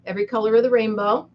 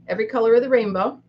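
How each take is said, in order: Both takes have the same delivery.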